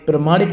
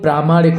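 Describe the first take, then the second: First: The first vowel is short. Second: The first vowel is long. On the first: The speaker calls it wrong. "प्रमाणिक नहीं होता दोस्तों" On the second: The speaker calls it right. "प्रामाणिक होता है"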